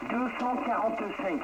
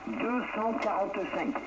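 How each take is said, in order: Both takes have the same delivery.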